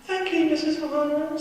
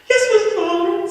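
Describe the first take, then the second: First: High, bright, polite schoolboy; good boy voice. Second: High, loud eager pupil; good boy voice. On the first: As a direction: sweeten it like the teacher's pet. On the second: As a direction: chirp it like the teacher's pet. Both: Acted. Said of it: "in my good boy voice".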